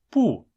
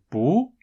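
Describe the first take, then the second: First: The syllable is said with the fourth tone. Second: The syllable is said with the second tone. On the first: "另一个是四声，那就是不" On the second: "一个是二声，那就是不"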